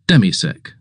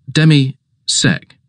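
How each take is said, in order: First: Said in the usual way. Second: Demisec drawn out slowly, syllable by syllable; slow patient repeat. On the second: Acted. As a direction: spell it out patiently for the master. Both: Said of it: "Forgive me, sir".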